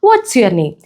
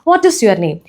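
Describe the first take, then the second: First: 'What is' is shortened to one syllable, 'what's'. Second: 'What is' is said as two full words.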